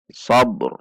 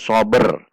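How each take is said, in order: First: The b bounces with no vowel added. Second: An extra vowel is added after the b. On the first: The speaker calls it right. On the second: The speaker calls it wrong.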